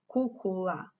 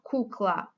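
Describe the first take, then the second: First: The word is said with three syllables. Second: The word is said with two syllables. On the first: The speaker calls it right. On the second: The speaker calls it wrong. "Not kukla"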